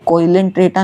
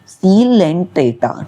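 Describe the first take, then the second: First: The word begins with a 'koy' sound. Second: The word begins with a 'see' sound. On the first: The speaker calls it wrong. "ये कोइलेंट्रेटा नहीं है" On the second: The speaker calls it right. "यहाँ पे ओ silent है"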